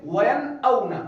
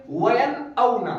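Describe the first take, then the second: First: وَيَنْأَوْنَ with the نون clear and quick, no nasal hold; correct quick reading. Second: نون in وَيَنْأَوْنَ said the wrong way; wrong reading. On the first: Teacher giving the correct recitation, crisp. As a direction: read وَيَنْأَوْنَ briskly, نون sounded. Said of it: "جلدی سے نون کو ظاہر کر کے پڑھیں گے". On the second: Quran teacher showing the wrong way to read, demonstrative. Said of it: "اس طرح نہیں پڑھیں گے". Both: Shown as a demonstration.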